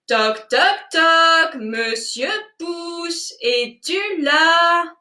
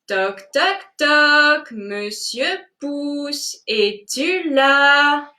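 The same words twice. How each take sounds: First: The call is said louder still. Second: The call is said louder than before. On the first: "encore plus fort" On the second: "nous allons l'appeler plus fort"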